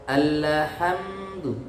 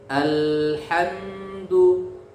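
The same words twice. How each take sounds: First: The L sound bounces with an extra vowel. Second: The L sound is held firmly without bouncing. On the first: The speaker calls it wrong. "jadi lam sukunnya dipantulkan" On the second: The speaker calls it right. "tidak boleh dipantulkan tapi ditekan ya"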